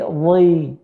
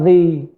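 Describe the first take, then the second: First: DHI said heavy, back of the tongue raised; correct thick dhi. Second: DHI said thin, without raising the back of the tongue; a light, thin DHI as the mistake; wrong thin dhi. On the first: Teacher correcting the mistake, a heavy drawn-out DHI. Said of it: "tapi dhi". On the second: Teacher showing the wrong letter, a thin light DHI. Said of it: "bukan dhi". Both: Shown as a demonstration.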